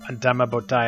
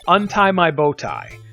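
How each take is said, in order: First: It is slurred quickly like speaking in tongues. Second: It is said plainly with clear separate words. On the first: "And then you say it like this" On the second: "the other one you can say is"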